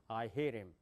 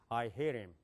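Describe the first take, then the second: First: It is said with an American English accent. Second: The same.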